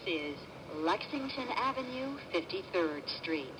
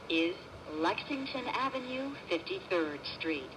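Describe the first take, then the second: No difference in how they are said.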